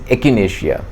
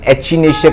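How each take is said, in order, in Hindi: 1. दूसरा व्यंजन 'k' जैसा बोला जाता है। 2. दूसरा व्यंजन 'ch' जैसा बोला जाता है। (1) "एक्चुअली इट इज एकिनेशिया" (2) "कई लोग एचिनेशिया करके प्रोनाउंस भी करते हैं"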